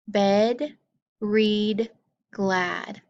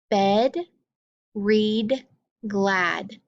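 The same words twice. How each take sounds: The two takes are said the same way.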